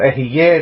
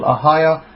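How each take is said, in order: First: Ehieh with "eh" vowels, ending in "yeh"; variant pronunciation Ehieh. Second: Ahiah with an open "ah" at both ends; Hebrew pronunciation Ahiah. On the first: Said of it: "different people pronounce it with different". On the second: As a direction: say Ahiah as "ah-HAH-yah". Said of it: "depends how the Hebrew is pronounced". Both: Shown as a demonstration.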